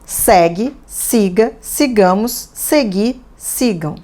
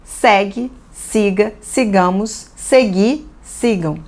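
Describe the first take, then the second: Both takes have the same delivery.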